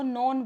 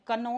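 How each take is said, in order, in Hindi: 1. यह शब्द बिना k की आवाज़ के शुरू होता है। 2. यह शब्द k की आवाज़ से शुरू होता है। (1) "इसको नॉन बोलते हैं" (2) "कनॉन नहीं बोलते"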